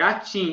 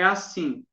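First: The middle consonant is a t sound. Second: The middle consonant is an s sound. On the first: A child swaps the sound while speaking. "elas falam tch, atim" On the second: The word in its usual form. "não é assim"

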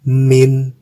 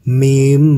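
First: It is said alone, ending in an n sound. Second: It is joined to the next word, ending in m. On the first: "ini kita baca min" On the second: "Apabila keduanya disambung, maka menjadi mim ba'ti"

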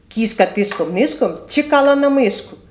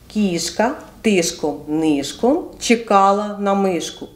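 First: It is said quickly. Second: It is said at a normal pace.

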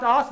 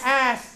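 First: The vowel sounds like 'o' in 'hot'. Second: The vowel sounds like 'a' in 'cat'. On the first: The speaker calls it wrong. "Not os" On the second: The speaker calls it right. "but it is?"

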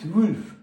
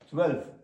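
First: The vowel sounds like a rounded 'u'. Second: The vowel sounds like an open 'e'. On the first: The speaker calls it wrong. "А тут ми не кажемо цвульф" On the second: The speaker calls it right. "ну ніяк. Цвельф"

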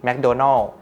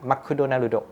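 First: It is said in plain English pronunciation. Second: It is said with extra vowels, Japanese style.

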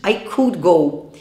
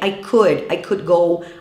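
First: The L in could is pronounced. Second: The L in could is silent. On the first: The speaker calls it wrong. "Muita gente fala o quê? ... Mas isso é errado" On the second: The speaker calls it right. "a gente não pronuncia esse L"

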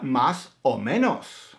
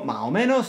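First: The s sounds are pronounced. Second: The s sounds are dropped.

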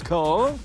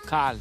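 First: The name is pronounced in an exaggerated, overdone way. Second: The name is pronounced plainly, short and natural. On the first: The speaker calls it wrong. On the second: The speaker calls it right.

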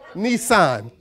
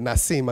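First: The word ends with an 'an' sound. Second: The word ends with an 'im' sound. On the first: The speaker calls it right. "Like the car" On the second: The speaker calls it wrong. "I said it, Nisim. I got the letters backwards"

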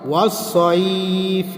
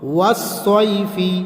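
First: The word ends on a consonant, vowel dropped. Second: The word ends with a short 'i' vowel. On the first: The reader stops at this word. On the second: The reading continues without stopping.

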